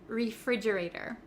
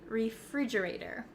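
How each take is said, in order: The two takes are said the same way.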